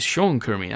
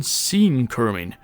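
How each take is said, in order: First: "Sean" said as SHAWN in Sean Kermin; corrected pronunciation. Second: "Sean" said as SEEN in Sean Kermin; alternative pronunciation. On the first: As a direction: say Sean Kermin with "Sean" rhyming with lawn. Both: Shown as a demonstration. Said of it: "or perhaps it's Sean Kermin".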